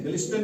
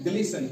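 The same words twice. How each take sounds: First: ग्लिस्टन with an audible T after S; T pronounced. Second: ग्लिसन with no T after the S; silent T. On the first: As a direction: sound the T in ग्लिस्टन. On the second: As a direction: say ग्लिसन without a T. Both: Shown as a demonstration. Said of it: "नहीं बल्कि".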